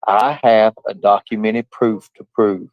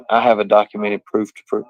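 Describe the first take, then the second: First: "I have a documented proof to prove" read slowly, word by word; mock-careful reading aloud. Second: Said in the usual way. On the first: Shown as a demonstration. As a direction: read it out slow and deliberate, like a hard text. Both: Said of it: "I'm gonna do my best to try to read it".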